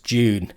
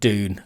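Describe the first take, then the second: First: It is said with a British accent. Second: It is said with an American accent. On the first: The speaker calls it right. "it's June, as in June Whitfield" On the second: The speaker calls it wrong. "the Americans, a friend of mine pronounces it Dune, and it's like, are you an American?"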